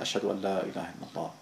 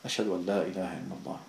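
The two takes are said the same way.

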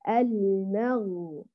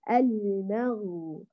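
Both takes have the same delivery.

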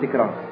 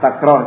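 First: The first vowel is a close 'i' sound. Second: The first vowel is an open 'a' sound. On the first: The speaker calls it wrong. "nggak boleh dibaca tikrar, ya kekeliruan" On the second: The speaker calls it right. "kebanyakannya dibaca fathah takrar seperti ini"

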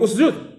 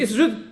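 First: The word begins with a u vowel. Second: The word begins with an i vowel. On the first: The speaker calls it right. "نقول أسجد" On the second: The speaker calls it wrong. "ماشي أسجد، إذا ماشي بحال اقرأ"

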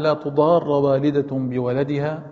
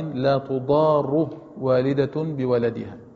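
First: The verb ends with a short a vowel. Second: The verb ends with a short u vowel. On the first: It forbids a mother from causing harm through her child. "قراءة الجزم" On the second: It states that a mother is not to be harmed through her child. "قراءة الرفع"

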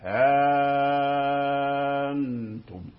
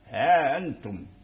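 First: The vowel after the h is held very long. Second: The vowel after the h is short, not lengthened. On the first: "أبدل الهمزة آلفا... فيكون هذا من مد الإشباع" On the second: "لا مد لهم، أي لا إدخال بين الهاء والهمزة"

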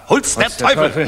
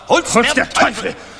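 First: It is said louder than before. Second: It is said loudest of all, nearly shouted. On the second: "Noch lauter"

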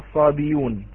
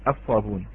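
First: A y sound is heard in the middle. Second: No y sound is heard in the middle. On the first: The speaker calls it wrong. "لا لا تقرأ بالياء" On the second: The speaker calls it right. "أنا قلت الحذف"

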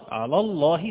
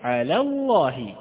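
First: The first l sound is heavy and thick. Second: The first l sound is light and thin. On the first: The speaker calls it wrong. "على الله خطأ" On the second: The speaker calls it right. "نقول على ثم ننطق بالحرف الذي يليها"

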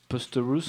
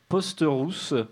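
First: It is pronounced with English sounds. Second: It is pronounced with French sounds.

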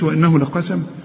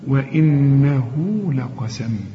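First: The vowel after the ha is cut short. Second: The vowel after the ha is lengthened. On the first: The speaker calls it wrong. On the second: The speaker calls it right.

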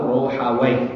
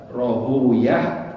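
First: The name ends with a 'waih' sound. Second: The name ends with an 'uyah' sound. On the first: Its ending sounds like the name of a devil. "Waih itu nama iblis" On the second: It avoids saying the name of a devil. "kebanyakan ulama al-hadis membacanya Rohuyah"

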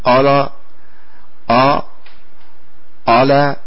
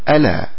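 First: The opening glottal stop sounds heavy and thickened. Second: The opening glottal stop sounds light and lowered. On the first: The speaker calls it wrong. "هل أحد يقول ألا ألا؟ أبدا" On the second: The speaker calls it right. "وإنما يقول ألا"

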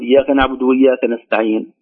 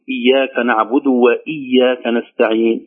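First: The glottal stop after 'wa' is slurred away. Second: The glottal stop after 'wa' is clearly pronounced. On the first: The speaker calls it wrong. "لا يبينها" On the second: The speaker calls it right. "فنقول إياك نعبد وإياك نستعين هكذا"

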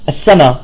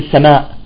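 First: The word ends without a glottal stop. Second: The word ends with a glottal stop. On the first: "ماذا نقول؟ ... لغة عامية" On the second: "بلغتنا نحن ما نقول السماء"

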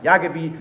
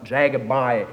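First: The name is said with German pronunciation. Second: The name is said with an American accent. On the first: This is how locals say the name. "sagt nicht Jagebi" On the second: This is how foreign visitors say the name. "sondern Jagebi"

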